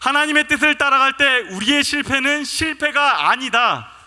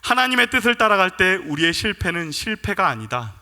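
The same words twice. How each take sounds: First: It is said louder, almost like a shout. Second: It is said at a normal speaking volume.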